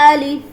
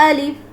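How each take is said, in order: The two takes are said the same way.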